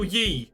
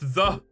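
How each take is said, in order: First: The word begins with a y sound. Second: The word begins with a th sound. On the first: The speaker calls it wrong. "There is no ye" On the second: The speaker calls it right. "It's a T H sound"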